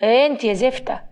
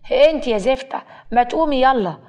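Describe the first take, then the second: First: Mildly irritated rising call; understated annoyed wake-up call; irritable. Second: Louder, annoyed wake-up call; insistent, irritated order to get up; irritable repeat. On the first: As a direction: call to a sleeper with a touch of temper. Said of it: "آدم بيبص لها بعصبية وبيقول". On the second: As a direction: rouse a sleeper impatiently, voice raised. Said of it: "آدم بيعيد الكلام وبيقول". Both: A narrator's reading.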